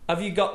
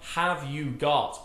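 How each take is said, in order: First: The words are reduced and run together. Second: Each word is said fully and separately. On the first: The speaker calls it right. "but have you got the keys?" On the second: The speaker calls it wrong. "not have you got"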